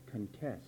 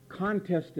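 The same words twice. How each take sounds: First: "contest" stressed on the second syllable, con-TEST; weak first syllable in "contest", stress on TEST; verb stress on second syllable. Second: "Contest" stressed on the first syllable, CON-test; noun stress on first syllable. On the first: Preacher showing the verb, second-syllable stress on "contest". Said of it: "another way to pronounce it, which is the verb". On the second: Preacher explaining the noun, first-syllable stress on "Contest". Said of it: "pronounced two different ways". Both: Shown as a demonstration.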